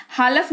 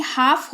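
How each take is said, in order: First: हालफ with the L sounded; wrong pronunciation. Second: हाफ with a silent L; correct pronunciation. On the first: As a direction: say हालफ with an audible L before F. (गलत उच्चारण, हालफ में ल बोलकर) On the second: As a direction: say हाफ, straight from vowel to F. (सही उच्चारण, हाफ में ल मौन) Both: Shown as a demonstration. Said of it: "हालफ नहीं हाफ होगा".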